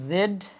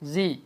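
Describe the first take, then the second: First: It is said as 'zed'. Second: It is said as 'zee'. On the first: "জেড না বলেও" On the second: "জি বলতে পারেন"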